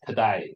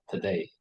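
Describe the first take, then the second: First: "today" as "to-die"; Australian A sound. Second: "today" ending in a clear "ay"; usual A sound. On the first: Teacher showing Australian accent, "today" as "to-die". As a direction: end "today" on an "eye" vowel. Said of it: "pronounce the A sound differently". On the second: Teacher contrasting with Australian, "today" with usual "ay". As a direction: say "today" to rhyme with "say". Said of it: "not today". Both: Shown as a demonstration.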